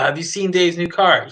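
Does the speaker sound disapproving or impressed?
impressed. The voice sounds impressed and excited. The car is great. "or if it's positive"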